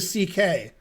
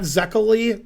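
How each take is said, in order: First: The name begins with an S sound. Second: The name begins with a Z sound. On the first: The speaker calls it right. "the pronunciation in English is close to C K" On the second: The speaker calls it wrong. "not Zekeli, which you would say if you were American like me"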